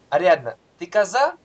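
The pitch rises at the end like a question. He asks whether she is a goat. "в другом случае спрашиваю, коза ли она"

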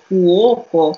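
The word is said with a Neapolitan accent. "people from Naples, they say fuoco"

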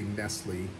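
The name is said the English way. This is not how people in Spain say it. "in Spain they don't say Nestle"

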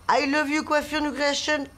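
The greeting sounds gentle and calm.

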